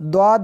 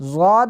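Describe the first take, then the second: First: The letter name begins with a d-like sound. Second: The letter name begins with a z-like sound. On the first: "द्वाद भी पढ़ते हैं" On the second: "इसको ज़ाद भी पढ़ते हैं"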